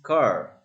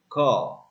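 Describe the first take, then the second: First: The final R sound is clearly pronounced. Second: The final R sound is dropped entirely. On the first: "in American English, car is car" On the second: "in British English, received pronunciation"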